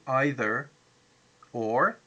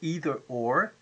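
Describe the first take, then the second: First: Either is pronounced the English way. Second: Either is pronounced the American way. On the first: "English uh, people say either or" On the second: "the Americans say either or"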